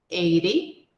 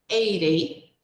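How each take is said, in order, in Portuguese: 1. O T é suavizado em um toque rápido, parecido com R. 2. O T é suavizado em um toque rápido, parecido com R.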